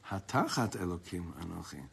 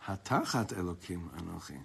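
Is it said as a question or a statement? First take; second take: statement; statement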